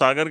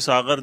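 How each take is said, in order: First: The middle consonant is a plain, hard g. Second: The middle consonant is a throaty, fricative gh. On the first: The speaker calls it wrong. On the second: The speaker calls it right.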